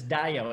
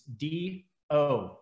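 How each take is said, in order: First: The name is said as one word. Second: The name is said as separate letters. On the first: The speaker calls it wrong. "Everyone thinks it's DIO" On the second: The speaker calls it right. "it's D-O"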